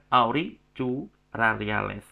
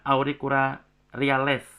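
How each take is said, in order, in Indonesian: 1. 'Cu' tidak dibaca dengan bunyi k. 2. 'Cu' dibaca dengan bunyi k keras. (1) "bukan auricularis" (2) "Cu-nya dibaca seperti K ya"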